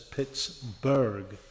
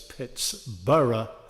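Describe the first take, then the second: First: The name is said the German way. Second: The name is said the Scottish way. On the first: This is how later settlers said the name. "they pronounced this area, other towns, as Pittsburgh" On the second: This is how the town's founders named it. "this town was named as Pittsburgh by the people from Scotland"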